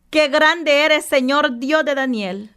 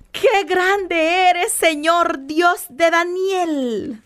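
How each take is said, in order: First: Said in the usual way. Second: Very slow, drawn-out "Qué grande eres", each word lingered over; savoring slowly. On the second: Shown as a demonstration. Preacher relishes the king's praise before the congregation, slow and awed. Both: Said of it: "Imagínate qué lindo".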